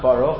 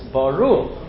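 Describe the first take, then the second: First: The stress is on the first syllable. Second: The stress is on the last syllable. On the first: The speaker calls it wrong. "they make everything milel" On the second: The speaker calls it right. "We pronounce the last syllable"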